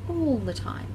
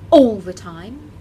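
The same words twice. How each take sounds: First: The first vowel starts softly without a glottal catch. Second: The first vowel starts with a hard glottal catch. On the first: The speaker calls it right. "That gentle onset is much better for your vocal folds" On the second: The speaker calls it wrong. "which is an example of hard glottal attack"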